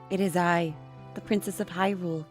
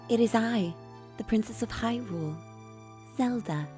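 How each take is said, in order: First: The voice is harder, not soft. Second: The voice is soft and gentle.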